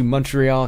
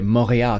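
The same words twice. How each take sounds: First: It is said with an English pronunciation. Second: It is said with a French pronunciation.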